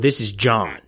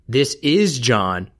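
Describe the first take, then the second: First: The stress falls on the word "John". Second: The stress falls on the word "is". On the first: "or John?" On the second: "the is"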